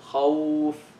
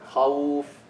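Both takes have the same delivery.

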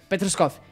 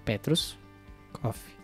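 First: The two words run together without a pause. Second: There is a pause between the two words. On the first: The name is harder to read. The speaker calls it wrong. "Se é tudo junto" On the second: The name is easier to read. The speaker calls it right. "se é separado, ela"

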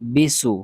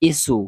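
First: The syllable starts with a b sound. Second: The syllable starts with a plain vowel i. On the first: "এগুলা উচ্চারণ হবে না" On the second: "এগুলা উচ্চারণ হবে না"

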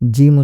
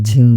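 First: The first consonant is a plain j sound. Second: The first consonant is an aspirated jh sound. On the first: The speaker calls it right. "জিম উচ্চারণ করতে গিয়ে" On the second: The speaker calls it wrong. "ঝিম বলল"

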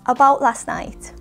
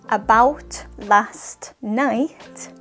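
First: The final T sounds in 'about' and 'last' are dropped. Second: The final T sounds in 'about' and 'last' are pronounced. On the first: The speaker calls it right. "In a natural way, it sounds like this" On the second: The speaker calls it wrong. "So it's not about last night"

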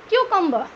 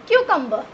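The two takes are said the same way.

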